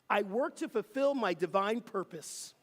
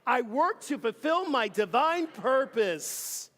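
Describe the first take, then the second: First: It is said plainly, without strong conviction. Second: It is said with strong conviction.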